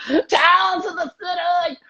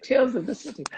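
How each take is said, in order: First: Put-on high, slow, strained Australian accent, half shouted; exaggerated Australian accent. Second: Said in the usual way. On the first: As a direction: overdo the Australian accent as if constipated. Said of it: "really hard to do your accent". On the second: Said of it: "I'll translate".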